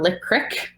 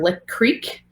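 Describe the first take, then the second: First: The word creek has a short i vowel. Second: The word creek has a long ee vowel. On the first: "or Lick Crick" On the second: "depending on the area of the U S you're from, is either Lick Creek"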